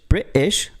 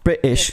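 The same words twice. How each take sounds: First: The syllables are said apart, as separate pieces. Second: The syllables run together as one smooth unit. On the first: The speaker calls it wrong. "you're not separating the two things of the word" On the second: The speaker calls it right. "that was perfect. Just like that"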